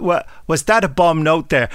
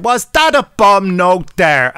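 First: Said in the usual way. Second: Slow, higher, louder mock Irish "Was that a bomb note there?"; stage-Irish accent, loud and slow; rubbish Irish accent. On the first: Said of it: "I often say that to people". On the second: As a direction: drag it out in a hammed-up Irish accent. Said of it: "quoting it with this offensive, rubbish Irish accent".

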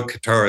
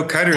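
First: Qatar with a stressed final TAR; Qatar as "kuh-TAR". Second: Qatar with stressed KUT, weak ending; Qatar as "cutter". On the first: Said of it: "is wrong". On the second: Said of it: "is wrong also". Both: Shown as a demonstration.

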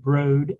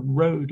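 First: Lightly voiced robotic word; computer voice. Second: Said in the usual way. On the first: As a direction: say it flat like a machine. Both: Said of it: "in that computer voice".

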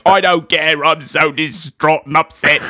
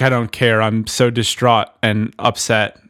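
First: Hammed-up Cockney outburst in a movie-star impression; Michael Caine. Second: Said in the usual way. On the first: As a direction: belt it out in a mock Cockney accent. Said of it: "Because he's Michael Caine". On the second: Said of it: "Except he said it like".

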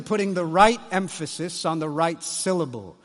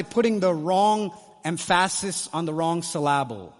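First: Said in the usual way. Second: "emphasis" stressed on its middle, em-FASS-is, "syllable" as sil-LAB-le; wrong-syllable stress. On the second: Shown as a demonstration. Preacher jokes about misplaced emphasis, wrongly stressing second syllables of "emphasis" and "syllable". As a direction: shift the beat in "emphasis" and "syllable" onto the second syllable.

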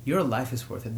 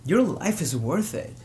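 First: Gentle repeat. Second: Urgent, rising plea to stay alive; earnest plea. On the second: Hotline worker pleading with a desperate caller, urgent. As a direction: press the caller hard that life matters. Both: Retold or imitated. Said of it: "one worker tells a, a caller".

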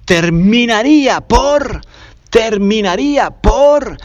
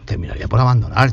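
First: Stretched, higher, hanging on por; terminaría por said slowly and high, leaning on por; slow emphatic build-up. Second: Said in the usual way. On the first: Shown as a demonstration. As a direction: drag out terminaría por for suspense.

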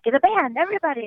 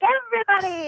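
First: Higher-pitched imitation of a rallying diva. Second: Sung, very high, held diva call; sung, belt it out high like a showy singer. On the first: Star rallying the room, lightly imitated high call. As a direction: lightly mimic a singer calling in the band. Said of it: "And then she's like". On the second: Retold or imitated. Star with arm up calling everyone, imitated high sung flourish. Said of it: "And she's like".

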